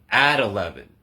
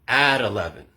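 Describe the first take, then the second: The two takes are said the same way.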